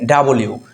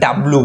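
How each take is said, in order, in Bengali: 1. নামটি 'yoo' ধ্বনিতে শেষ হয়। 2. নামটি সাধারণ 'oo' ধ্বনিতে শেষ হয়। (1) "কিন্তু ডাব্লিউ" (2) "আমরা ডাব্লু বলি, ডাব্লু না"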